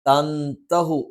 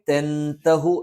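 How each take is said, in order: First: The first vowel is an open 'a' sound. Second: The first vowel is an 'e' sound. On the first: The speaker calls it right. "തൻതഹു എന്ന് അകാരമായിട്ട് തന്നെ പറയണം" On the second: The speaker calls it wrong. "തെൻതഹു എന്ന് വരാനുള്ള സാധ്യതയുണ്ട്. അതും തെറ്റാണ്"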